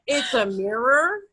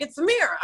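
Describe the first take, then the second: First: Slow "mirror" with a clear final R, rising; "mirror" drawn out in standard American, R sounded; corrected mirror. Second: "mirror" said as "mirra", final R dropped; "mirror" with an open New York ending. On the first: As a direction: spell out "mirror" slowly as a questioning correction. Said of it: "And he's like". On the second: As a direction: insist on "mirror" without its last R. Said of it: "No, what is that?". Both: Retold or imitated.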